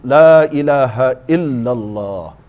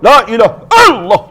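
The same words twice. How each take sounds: First: It is said gently, with a soft voice. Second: It is said harshly, with a forceful voice.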